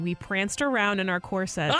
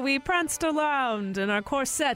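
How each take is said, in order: First: It is said in her ordinary speaking voice. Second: It is said in a put-on character voice. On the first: "Okay, fine" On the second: "You don't have to do the voice"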